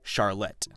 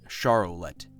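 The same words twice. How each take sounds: First: The name has two syllables, Char-lotte. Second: The name has three syllables, Char-o-lette. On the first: The speaker calls it right. "But in reality, it's C H A R L O T T E" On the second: The speaker calls it wrong. "I've been spelling it as C H A R O L E T T E, and pronouncing it Charlotte"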